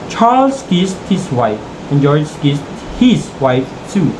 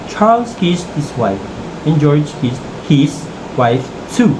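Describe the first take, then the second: First: Charles and the second his are both stressed. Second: Only the last his is stressed, not Charles. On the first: George kissed the first man's wife. "If we stress the word Charles earlier and the his in the second clause" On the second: Each man kissed his own wife. "when we stress the last his"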